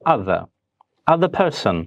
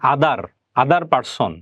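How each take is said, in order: First: The middle consonant is a soft TH sound. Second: The middle consonant is a hard D-like sound. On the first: The speaker calls it right. "আমরা বলবো আদার আদার person" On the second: The speaker calls it wrong. "এই আদার এটা না বলে"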